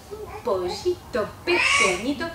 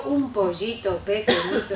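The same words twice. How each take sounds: First: Higher, slow, bright and forward; forward luminous voice. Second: Cutesy little-chick voice, slow; the wrong way, playing a baby chick. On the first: Teacher models the right luminous forward voice for children. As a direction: place it at the front of the mouth. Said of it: "pueden notar si yo hago". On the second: Teacher shows the cutesy chick voice she avoids. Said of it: "yo no hago el pollito". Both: Shown as a demonstration.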